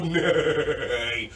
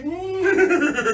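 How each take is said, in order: First: A calm breathy neigh; low horse neigh. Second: High laughing neigh; whinny like a playful horse; kids' yoga horse sound. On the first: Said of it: "take a big belly breath in and go". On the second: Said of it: "and everybody say". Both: Shown as a demonstration.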